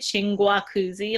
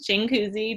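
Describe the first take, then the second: First: The middle G sound is pronounced. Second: The middle G sound is silent. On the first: The speaker calls it wrong. "like they pronounce the extra G" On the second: The speaker calls it right. "the G is silent"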